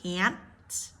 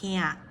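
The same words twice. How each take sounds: First: The final T is clearly released. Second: The final T is held, not released. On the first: "make the speech sound clear, so you can say can't" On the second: "you just stop that T in the roof of your mouth because it is a stop T"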